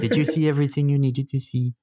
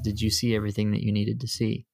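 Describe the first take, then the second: First: It is said in a put-on character voice. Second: It is said in the speaker's normal voice.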